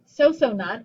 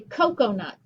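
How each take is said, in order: First: The C's are said with an S sound. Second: The C's are said with a K sound. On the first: The speaker calls it wrong. "I don't say so-so nut" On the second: The speaker calls it right. "I say coconut"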